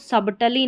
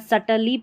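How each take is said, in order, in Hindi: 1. बीच में b ध्वनि उच्चारित होती है। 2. बीच में b ध्वनि साइलेंट है। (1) "सबटली नहीं" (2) "सटल या सटली पढ़ेंगे"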